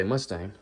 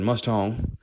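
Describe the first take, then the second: First: Said in the usual way. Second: Mustang said as "muss-tong"; altered vowel. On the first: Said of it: "if I were to say that". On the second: Shown as a demonstration. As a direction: open the second vowel of Mustang to "ong". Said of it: "If I said Mustang".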